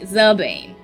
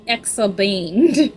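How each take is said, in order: First: The name begins with a 'z' sound. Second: The name begins with an 'eks' sound. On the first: The speaker calls it right. "Zabane. Thank you" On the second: The speaker calls it wrong. "it's still Exabane in my brain"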